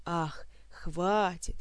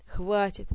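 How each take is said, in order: First: Хватит drawn out slow and scornful; mocking echo. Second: Хватит blurted out in a rush; hasty gasp. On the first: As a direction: mimic him with a slow sneering хватит. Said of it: "продолжал разоряться Элмар". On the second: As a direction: gasp хватит before he's dunked again. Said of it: "поспешно выдохнул Кантор". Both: A narrator's reading.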